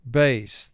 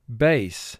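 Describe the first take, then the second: First: The vowel rhymes with the one in 'face'. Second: The same.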